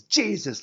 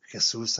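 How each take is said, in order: First: High, loud preacher's cry. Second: "Jesus" said the Spanish way, hey-SOOS; Spanish pronunciation. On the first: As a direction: boom the name like a televangelist. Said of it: "like one of those flabby-jowled T V preachers". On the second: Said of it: "I mumble". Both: Acted.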